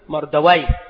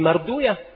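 First: The name ends with the sound -awayh. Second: The name ends with the sound -uyah. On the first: This is how other scholars say it. "وأما عند غيرهم فيقولون" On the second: This is how hadith scholars say it. "بل هذا هو نطق عند المحدثين"

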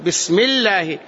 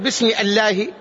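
First: Bi links straight into smi without a stop. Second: A glottal stop is pronounced before ismi. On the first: The speaker calls it right. "تقول" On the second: The speaker calls it wrong. "ما تقول"

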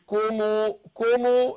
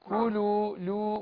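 First: The middle consonant sounds like an M. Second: The middle consonant is a clear L sound. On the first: The speaker calls it wrong. "مش كومو كومو" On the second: The speaker calls it right. "اللام فيها انحراف، كولو لو"

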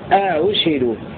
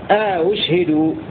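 No difference in how they are said.

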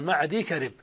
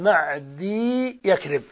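First: A single y sound joins the two words. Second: A doubled y sound joins the two words. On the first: The speaker calls it right. "نطقه الصحيح هكذا" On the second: The speaker calls it wrong. "ومن الخطأ أن يقال معدي يكرب بياءين"

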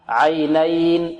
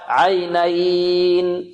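First: The vowel is held for two counts. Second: The vowel is held for four counts. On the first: "نقرأ بحركتين" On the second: "أربع حركات"

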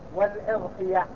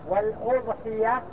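First: The first vowel is an 'i' sound. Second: The first vowel is a 'u' sound. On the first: "يجوز بالكسر" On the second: "بضم الهمزة"

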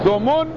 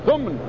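First: The middle consonant is followed by u. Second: The middle consonant has no vowel. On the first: "ضم الميم" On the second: "وسكونها"

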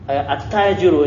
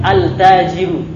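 First: The l sound merges into a doubled t. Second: The l sound is pronounced clearly before t. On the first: The speaker calls it right. "ini kasihan digomkan terus, capek ngucapinnya" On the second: The speaker calls it wrong. "Gak bisa. Tidak bisa dirubah seperti itu"

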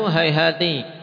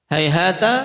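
First: The word ends with an i vowel. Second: The word ends with an a vowel.

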